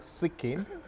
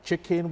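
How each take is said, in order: First: The word starts with an 's' sound, Ibadan-style. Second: The word starts with a 'ch' sound.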